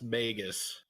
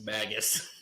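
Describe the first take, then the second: First: Magus said MAY-gus, long A; standard pronunciation. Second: Magus said MAG-us, short A; haggis-like pronunciation. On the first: Shown as a demonstration. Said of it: "usually pronounced". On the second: Retold or imitated. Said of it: "like haggis".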